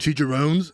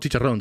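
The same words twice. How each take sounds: First: The word is said with an American accent. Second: The word is said with a Spanish accent. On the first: Others expect the word to be said this way. The speaker calls it wrong. "don't you mean chicharrones?" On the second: This is the word's original Spanish form. The speaker calls it right. "that's how you say it. That's the word. It's a Spanish word"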